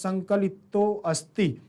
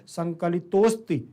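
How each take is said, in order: First: The 'a' of asti is pronounced separately. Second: The 'a' of asti is dropped and merged. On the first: The speaker calls it wrong. "संकलितो अस्ति तो गलत है" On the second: The speaker calls it right. "संकलितोस्ति तो सही है"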